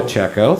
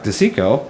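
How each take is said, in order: First: "DeCecco," said deh-CHECK-oh with a CH sound; "DeCecco," with CH, corrected reading; corrected name. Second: "DeSico." said deh-SEE-koh with an S sound; mispronounced name. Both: Real, not acted. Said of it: "Chief DeCecco".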